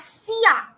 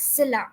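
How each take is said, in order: First: Silla as SEE-ya, no l; correct pronunciation. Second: Silla with an l, SIL-la; mistaken pronunciation. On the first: Teacher giving students the word for chair, silla said SEE-ya. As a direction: turn the double L in silla into y, SEE-ya. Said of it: "It is known as". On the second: Teacher telling students what it isn't, silla said SIL-la. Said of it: "It is not known as". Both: Shown as a demonstration.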